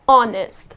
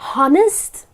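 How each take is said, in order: First: The word begins with a vowel, no h sound. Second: The word begins with an audible h sound. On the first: The speaker calls it right. "The correct pronunciation of this word is honest" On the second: The speaker calls it wrong. "That's incorrect. You need not pronounce this H here"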